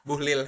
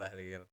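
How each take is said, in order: First: The first vowel sounds like 'u'. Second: The first vowel sounds like 'a'.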